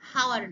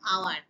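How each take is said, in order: First: The word starts with an audible h sound. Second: The word starts with a vowel, no h sound. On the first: The speaker calls it wrong. "উচ্চারণ কিন্তু হাওয়ার নয়" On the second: The speaker calls it right. "An আওয়ার"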